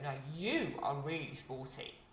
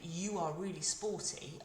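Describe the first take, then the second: First: The stress is on you. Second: It is said plainly with no special stress.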